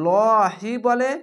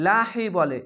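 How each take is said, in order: First: লহি with a rounded o vowel, drawn out slowly and louder; lohi pronunciation. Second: লাহি with an open a vowel, said briskly; lahi pronunciation. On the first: Teacher contrasting regional readings for students, slow o-sound. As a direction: say লহি with round o, stretched long. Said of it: "অনেক জায়গায় লহি বলে". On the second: Teacher giving the other reading for students, open a-sound. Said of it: "আরেক জায়গায় লাহি বলে". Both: Shown as a demonstration.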